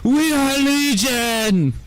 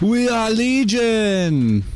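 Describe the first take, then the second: First: It is said with much more energy and feeling. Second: It is said with little energy or feeling.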